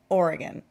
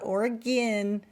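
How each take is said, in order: First: It is pronounced the local West Coast way. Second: It is pronounced another non-local way. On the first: The speaker calls it right. "those of us from the West Coast, including Oregon, call it Oregon" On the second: The speaker calls it wrong. "not Oregon"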